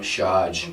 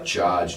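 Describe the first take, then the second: First: The word begins with an 'sh' sound. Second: The word begins with a 'ch' sound. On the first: The speaker calls it wrong. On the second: The speaker calls it right. "Ch, yeah"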